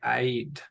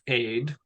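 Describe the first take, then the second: First: The vowel has a short catch breaking it. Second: The vowel flows smoothly without any break. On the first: "it kind of has this um, little pause in it" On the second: "we could pronounce this as just aid"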